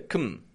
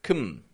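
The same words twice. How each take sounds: First: The syllable has a reduced schwa vowel. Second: The syllable has a reduced schwa vowel.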